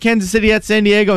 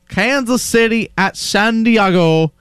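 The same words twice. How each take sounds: First: It is said very fast. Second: It is said slowly.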